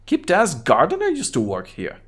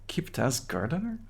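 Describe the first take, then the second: First: Put-on lightly higher kid voice; Kuno voice. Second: Said in the usual way. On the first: Kid Kuno names the gardener, lightly higher kid voice. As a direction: toss off the name like a bored kid. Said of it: "What is wrong with your high voice?".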